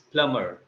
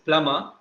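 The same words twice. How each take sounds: First: The final r sound is pronounced. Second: The final r sound is dropped. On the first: "in American, it's plumber. So American roll their, their tongue" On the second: "in British, it's plumber"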